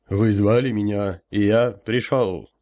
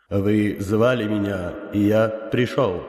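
First: Booming elder voice. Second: Slow, powerful unearthly boom; inhuman booming voice. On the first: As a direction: boom it like a summoned spirit. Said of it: "прогудел я". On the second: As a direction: speak like an otherworldly elder. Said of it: "мощным, нечеловеческим голосом произнёс". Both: Acted.

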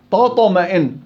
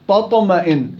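First: تطمئن with the ت made heavy like ط; wrong heavy ت in تطمئن; heavy taa error. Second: Said in the usual way. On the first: Shown as a demonstration. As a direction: darken the ت in تطمئن. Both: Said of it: "هي تاء تطمئن".

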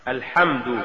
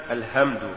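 First: Said in the usual way. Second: الهمد with ه where ح belongs; faulty reading of الحمد as الهمد; mispronounced ح. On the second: Shown as a demonstration. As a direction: say الهمد with a plain h. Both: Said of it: "تقرأ لحنا".

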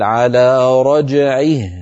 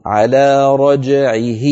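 First: "رجعه" ending in a still h, drawn out slowly; slow recitation ending "رجعه" on a sukun h; stopping on the ha. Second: "رجعه" stopped with a vowel kept on the h, slowly; "رجعه" ending with an i sound, marked wrong. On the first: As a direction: stop on "رجعه" with a silent final ha. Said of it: "لما نقف عليه نقول". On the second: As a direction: show the wrong stop on "رجعه". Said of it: "ولا نقول". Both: Shown as a demonstration.

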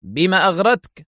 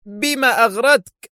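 First: Sharp, higher-pitched demand; stern, sharp. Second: Slow, high-pitched angry shout; roaring shout. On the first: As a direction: question him sternly, voice raised. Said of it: "يسأله في حدة صارمة". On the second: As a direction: roar the question, drawing it out. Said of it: "قاطعه ديليشمسكي بصيحة هادرة". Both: A narrator's reading.

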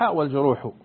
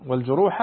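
First: والجروح ending in a short -u; nominative reading. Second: والجروح ending in a short -a; accusative reading. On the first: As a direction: say والجروح with a damma on the final ḥ, "wal-juruḥu". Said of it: "بالرفع وبال". (والجروحُ بضم الحاء في آخرها) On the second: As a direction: say والجروح with a fatha on the final ḥ, "wal-juruḥa". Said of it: "بال-، بالفتح". (والجروحَ بفتح الحاء في آخرها) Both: Shown as a demonstration.

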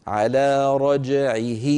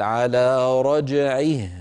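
First: رجعه said slowly with a vowel after the ه; wrong stop. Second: رجعه ending on a silent ه, slow and deliberate; correct stop. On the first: Teacher showing the wrong stop on رجعه. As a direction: sound out رجعه wrongly, with the ه voiced on. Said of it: "ولا نقول". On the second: Teacher showing the right stop on رجعه. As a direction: stop on رجعه with no vowel after the ه. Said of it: "لما نقف عليه نقول". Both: Shown as a demonstration.

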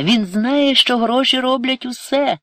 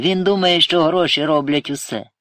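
First: High, loud wail; tearful. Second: Firm, loud correction. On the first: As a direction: cry it out, much higher and louder. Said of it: "заплакала Ірина". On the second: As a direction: raise it and insist, without tears. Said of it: "твердо мовив Сергій". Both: A narrator's reading.

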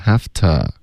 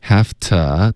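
First: "have to" ending on a voiced "tuh"; voiced schwa ending. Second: "have to" ending on a whispered t; wrong voiceless ending. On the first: Teacher corrects it, "have to" as "haf-tuh". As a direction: let the throat sound the vowel of "to" in "have to". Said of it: "应该嗓子震动的". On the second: Teacher imitates student's mistake, "have to" as "haft". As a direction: drop the vowel from "to" in "have to". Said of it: "你发成have to". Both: Shown as a demonstration.

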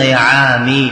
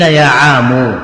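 First: "يا عامي" with the final م said as mi, يا عامِ; "يا عامي" as yā ʿāmi, the kasra kept as if the ر were still there; kasra on the mim. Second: "يا عام" ending on mu, يا عامُ, set against the kasra version; "يا عام" as yā ʿāmu, not yā ʿāmi; damma on the mim. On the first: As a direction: say "يا عامي" ending on a clear kasra, mi. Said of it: "بكسر الميم". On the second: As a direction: stress "يا عام" with a rounded mu at the end. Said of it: "فقيل". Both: Shown as a demonstration.

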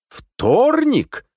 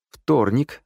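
First: «Вторник?» high, loud and drawn out; astonished question. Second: Said in the usual way. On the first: A narrator's reading. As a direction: squawk «Вторник?» in disbelief. Phone news contradicts his belief. (изумлённо, протяжно: «Вторник?») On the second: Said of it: "ответил я".

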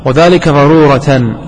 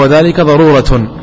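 First: Final word of "وذلك ضرورة" ends in -tan; accusative ending. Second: Final word of "وذلك ضرورة" ends in -tun; nominative ending. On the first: Teacher giving first reading to students, "ضرورة" ending in -tan. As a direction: sound the tanween -an closing "ضرورة". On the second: Teacher giving alternative reading to students, "ضرورة" ending in -tun. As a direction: sound the tanween -un closing "ضرورة". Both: Shown as a demonstration. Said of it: "أو".

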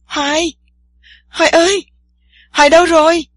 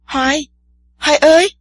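First: Panicked shout, much higher and louder; alarmed girl screams for her missing friend in the water; frantic yelling. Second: Calling out a name in fear, rising and louder; a frightened girl calls her friend from the bank. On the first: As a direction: yell for him in rising panic. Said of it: "khiến Tiên Sa la làng". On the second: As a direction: shout for him, scared he has vanished. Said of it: "Tiên Sa sợ hãi kêu lên". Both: A narrator's reading.

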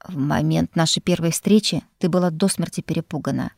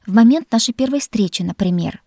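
First: Composed echo of her words, with weight on "до"; interrupting retort. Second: Louder, higher opening, easing off on the example; huffy retort. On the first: Lord cutting off the heroine's complaint, composed interrupting retort. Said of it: "перебил меня Эйнар". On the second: Heroine needling the lord about their first meeting, huffy retort. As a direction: throw a pointed example back at him. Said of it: "фыркнула я". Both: A narrator's reading.

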